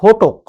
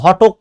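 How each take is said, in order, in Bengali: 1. প্রথম স্বরধ্বনিটি একটি গোলাকার 'o' ধ্বনি। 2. প্রথম স্বরধ্বনিটি একটি খোলা 'o' ধ্বনি। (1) "এটার উচ্চারণ হচ্ছে ঘটক" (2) "এটার উচ্চারণ কিন্তু ঘটক না"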